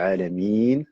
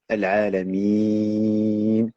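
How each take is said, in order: First: The long vowel is held for two counts. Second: The long vowel is held for four counts. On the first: "deux temps" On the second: "quatre temps"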